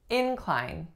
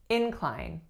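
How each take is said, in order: First: The stress is on the first syllable. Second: The same.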